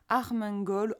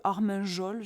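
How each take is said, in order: First: Armengol with a hard g, as in "gol"; "Armengol" ending in a hard "-gol"; hard-g pronunciation. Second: Armengol with a soft French j sound, "-jol"; "Armengol" tried as "Armenjol"; soft-g pronunciation. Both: Real, not acted. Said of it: "je sais pas trop comment ça se prononce".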